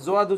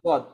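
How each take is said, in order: First: The word starts with a z-like sound. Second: The word starts with a d-like sound. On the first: The speaker calls it wrong. "জোয়াদ উচ্চারণ ঠিক না" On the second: The speaker calls it right. "দদই হবে দদ"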